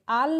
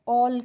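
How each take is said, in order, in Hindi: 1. स्वर खुला हुआ 'aa' ध्वनि है। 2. स्वर गोल होकर बोला जाने वाला 'aw' ध्वनि है। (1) "आल नहीं पढ़ेंगे" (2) "ऑल करके पढ़ेंगे"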